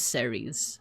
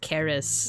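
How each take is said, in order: First: The name begins with an s sound. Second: The name begins with a k sound. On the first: This is the usual American English way. "at least in American English, I've heard Ceres" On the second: This is the original Latin way. "Actually, it's pronounced Charis"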